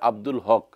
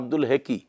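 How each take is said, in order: First: The last name is said with one syllable. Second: The last name is said with two syllables. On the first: This is the name as its owner says it. The speaker calls it right. "তার নাম হচ্ছে আব্দুল হক" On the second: This is how a foreigner reads the spelling. The speaker calls it wrong. "তার নাম উচ্চারণ করতেছে আব্দুল হেকি"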